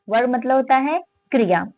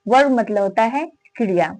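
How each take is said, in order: No difference in how they are said.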